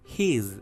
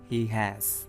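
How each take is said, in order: First: It is said as one short syllable. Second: It is said as two full syllables.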